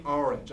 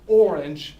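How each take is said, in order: First: "orange" starting with "ar", like "ar-inge"; Philadelphia "orange". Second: Drawn-out "orange" with a round OR start; correct English "orange". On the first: Teacher admitting Philadelphia habit, "orange" as "ar-inge". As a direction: say "orange" with an AH vowel. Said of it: "I still say orange". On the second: Teacher giving correct English, slow careful "orange" as "or-inge". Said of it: "The correct English for the word". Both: Shown as a demonstration.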